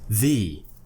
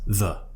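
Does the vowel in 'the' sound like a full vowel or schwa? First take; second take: full vowel; schwa. First: The vowel is a full vowel, not schwa. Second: The vowel is a short relaxed schwa. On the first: "That's how we would pronounce it before a vowel" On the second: "th and then schwa"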